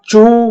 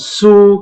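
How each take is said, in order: First: The word begins with a ch sound. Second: The word begins with a plain s sound. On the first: "bukan cu" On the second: "bukan su"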